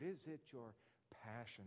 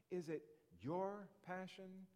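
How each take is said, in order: First: Brief pause, then PASSION set apart; stress on PASSION. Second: YOUR drawn out and raised before "passion"; stress on YOUR. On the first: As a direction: isolate PASSION at the end of the question. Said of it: "Put the emphasis on that word". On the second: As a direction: lean slowly on YOUR, then pause. Preacher stresses successive words of question. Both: Shown as a demonstration.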